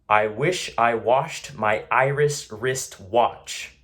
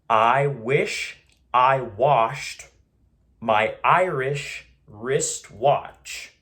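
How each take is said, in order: First: It is said at a normal, everyday speed. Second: It is said slowly, broken into separate parts. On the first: "I'll say it normally" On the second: "we're gonna move into the slower portion. ... I'm gonna break it up"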